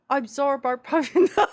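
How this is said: It is said in a put-on Australian accent.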